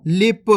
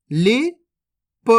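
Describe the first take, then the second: First: Said in the usual way. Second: लिप stretched very slowly, sounds held long; slow teaching demo; drawn out slowly. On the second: Shown as a demonstration. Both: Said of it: "अब चलिए आगे देखिए".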